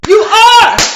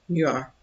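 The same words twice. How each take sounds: First: It is said with cheerleader-like enthusiasm. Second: It is said flatly, without enthusiasm.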